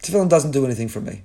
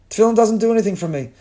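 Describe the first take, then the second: First: Said in the usual way. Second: Higher, fast mock-whiny complaint; mocking young man. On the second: Rabbi mimics bored young men dismissing tefillin, mock whine. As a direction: parrot their dismissive whine, pitched up. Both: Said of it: "and they said".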